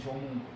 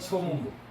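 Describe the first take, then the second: First: The name begins with a j sound. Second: The name begins with an s sound. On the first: It is used as a place name. "지명으로 읽을 땐" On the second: It is used when talking about history. "역사로 읽을 때는"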